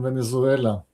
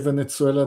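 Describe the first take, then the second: First: The middle consonant is a z sound. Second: The middle consonant is a ts sound. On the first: "than Venezuela" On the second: "more sing-song like to say Venezuela"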